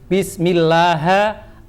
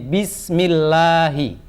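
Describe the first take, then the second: First: The word ends with an 'a' vowel. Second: The word ends with an 'i' vowel. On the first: The speaker calls it wrong. "Nggak boleh" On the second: The speaker calls it right. "kata Allah dibaca hi"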